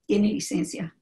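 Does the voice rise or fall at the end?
fall. It is said as a statement, falling at the end.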